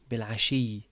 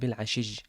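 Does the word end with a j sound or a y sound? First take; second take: y sound; j sound. First: The word ends with a y sound. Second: The word ends with a j sound.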